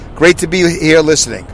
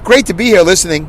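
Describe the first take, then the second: First: It is read flatly, without excitement. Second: It is read with lively, exclamatory energy. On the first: The speaker calls it wrong. "he didn't say it like that" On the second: The speaker calls it right. "He had an exclamation point"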